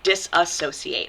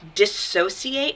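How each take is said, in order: First: It is said with five syllables. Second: It is said with four syllables. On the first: The speaker calls it wrong. "not disassociate" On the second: The speaker calls it right. "it's dissociate"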